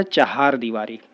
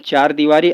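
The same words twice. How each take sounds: First: चहार दीवारी with two-syllable 'cha-haar'; corrected form. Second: चार दीवारी with one-syllable 'chaar'; wrong form. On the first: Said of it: "शुद्ध होता है". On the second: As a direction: say चार दीवारी as chaar-deewari. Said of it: "अशुद्ध है". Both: Shown as a demonstration.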